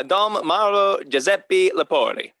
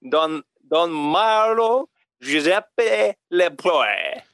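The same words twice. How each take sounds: First: "Don Marlo Giuseppe Lepori" said with Italian sounds, "Lepori" as "le-PO-ri"; plain Italian pronunciation. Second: Slow, drawn-out mock French accent on "Don Marlo Giuseppe Lepoe". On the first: Shown as a demonstration. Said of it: "It's really". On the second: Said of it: "read it like it's, like it's a French name".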